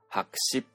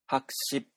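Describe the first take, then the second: First: The first syllable is short and low. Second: The first syllable is short and high. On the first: "1 文字目の音節が転調して第4 声に転調して" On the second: "元々の成長を保持したまま言いますと"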